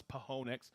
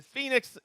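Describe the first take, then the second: First: "Pahonix" with an extra syllable, puh-HO-nix; mistaken pronunciation. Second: Said in the usual way. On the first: Shown as a demonstration. Streamer admitting an old misreading, mispronounced "Pahonix". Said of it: "I always thought it was Pahonix". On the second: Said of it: "I learned how to say it".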